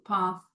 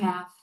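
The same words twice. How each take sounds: First: It is said with a non-American accent. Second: It is said with an American accent.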